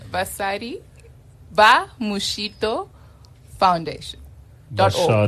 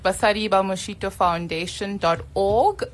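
First: It is said slowly. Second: It is said at normal speed.

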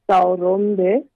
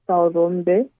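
Both takes have the same delivery.

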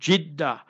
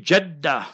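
First: The first vowel is an 'i' sound. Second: The first vowel is an 'a' sound. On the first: The speaker calls it wrong. "you pronounced it Jiddah" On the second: The speaker calls it right. "you must say Jaddah, bifathil jim, with the zabar on the jim"

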